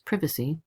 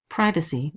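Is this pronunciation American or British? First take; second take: British; American. First: It is said in a British way. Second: It is said in an American way.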